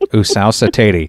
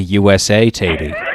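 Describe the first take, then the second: First: USA is run together as one word. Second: USA is spoken as three separate letters. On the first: The speaker calls it wrong. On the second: The speaker calls it right.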